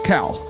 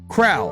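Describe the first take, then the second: First: No R sound follows the first consonant. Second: An R sound follows the first consonant. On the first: The speaker calls it right. "There's no R in it" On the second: The speaker calls it wrong. "I was just making up an R"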